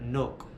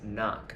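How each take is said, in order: First: The vowel is a long 'oh' sound. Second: The vowel is the short sound in 'off'. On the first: The speaker calls it wrong. "It's not nok, where it doesn't actually sound like O" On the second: The speaker calls it right. "it's knock. It's just like the O in off"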